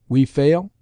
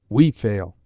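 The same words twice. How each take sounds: First: The voice rises at the end, as a question. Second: The voice falls at the end, as a statement.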